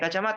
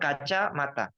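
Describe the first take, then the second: First: The word is said smoothly without a pause. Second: The word is split with a pause inside. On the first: The speaker calls it right. "Ya kacamata ya kacamata" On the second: The speaker calls it wrong. "Tidak boleh bilang kaca mata"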